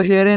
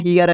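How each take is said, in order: First: Here as "he-re", two e vowels; letter-by-letter misreading. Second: Here as "hi-yar"; correct reading. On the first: Teacher showing what not to read, here as "he-re". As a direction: sound every letter of here, "he-re". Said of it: "आपको here नहीं पढ़ना". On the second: Teacher giving the right reading, Here as "hi-yar". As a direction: say Here with ee gliding to r. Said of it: "आपको क्या पढ़ना है?". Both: Shown as a demonstration.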